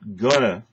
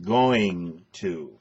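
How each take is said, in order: First: The phrase is squeezed into a reduced form. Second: The phrase is said fully, each word clear. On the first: The speaker calls it wrong. "I'm not gonna" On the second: The speaker calls it right. "I'm going to"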